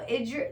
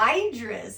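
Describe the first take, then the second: First: The first vowel is a short 'i' sound. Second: The first vowel is a long 'eye' sound. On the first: The speaker calls it right. "short eye" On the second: The speaker calls it wrong. "She kept saying Idris"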